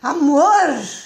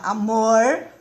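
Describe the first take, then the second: First: It is said in an annoyed, cross tone. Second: It is said in a warm, pleasant tone. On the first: The speaker is unhappy and upset with him. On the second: The speaker is happy with him.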